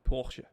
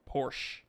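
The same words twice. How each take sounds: First: The word is said the German way. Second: The word is said the shortened way. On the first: The speaker calls it right. "in German, it's like Porsche" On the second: The speaker calls it wrong. "It's not Porsche"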